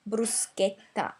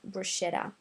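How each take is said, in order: First: The middle sound is a hard 'sk'. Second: The middle sound is a soft 'sh'. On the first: The speaker calls it right. "the correct pronunciation of this word is actually bruschetta" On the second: The speaker calls it wrong. "not bruschetta"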